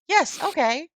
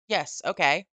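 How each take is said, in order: First: It is said in an excited, cheery tone. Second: It is said in a flat, plain tone.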